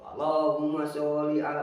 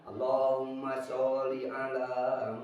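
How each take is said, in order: First: The phrase is said loudly and forcefully. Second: The phrase is said softly and slowly. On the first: The worshippers are annoyed at waiting. "lama-lama makin keras" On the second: The worshippers are waiting calmly.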